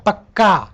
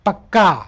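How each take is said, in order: Both takes have the same delivery.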